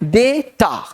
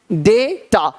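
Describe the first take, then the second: First: The first vowel sounds like 'ay'. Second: The first vowel sounds like 'ay'.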